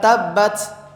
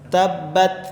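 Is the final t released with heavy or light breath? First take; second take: heavy; light. First: The final t has a strong burst of breath. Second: The final t has only a slight breath. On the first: The speaker calls it wrong. "Kalau tabbat itu salah" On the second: The speaker calls it right. "hanya sedikit yang keluar"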